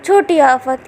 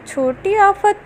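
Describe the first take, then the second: First: Said in the usual way. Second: छोटी आफत repeated higher, amused; amused echo. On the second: Acted. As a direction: echo छोटी आफत back with a raised, teasing lilt. Jao repeats nickname, amused. ("छोटी आफत" ऊँची, मज़ाकिया आवाज़ में)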